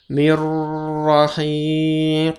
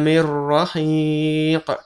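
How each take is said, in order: First: The joined sound is held for several beats. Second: The joined sound passes straight on without a hold. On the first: The speaker calls it wrong. "Bukan mir rahiq. Bukan dua ketukan, tiga ketukan" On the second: The speaker calls it right. "langsung ke tasydid dan tidak ada dengung"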